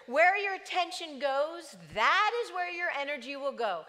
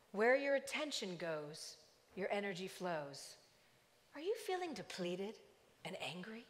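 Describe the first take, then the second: First: Louder, emphatic restatement; plain preaching. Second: Calm loudspeaker voice. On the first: Real, not acted. Preacher repeating the slogan to the church, emphatic. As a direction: drive the point home to the congregation. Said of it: "preacher restates the line". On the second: Retold or imitated. Walmart loudspeaker addressing the parking lot, calm and soothing. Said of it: "A very calm voice over the loudspeaker".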